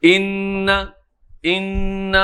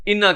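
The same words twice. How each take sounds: First: ان with the n held in a nasal hum; with ghunna. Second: انا with a quick n and no nasal hold; انا with a short n; no ghunna. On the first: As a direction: hold the n of ان, humming it through the nose. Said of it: "نون پہ غنہ کرنا تھا". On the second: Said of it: "بغیر غنے کے آگے نکل گئے". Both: Shown as a demonstration.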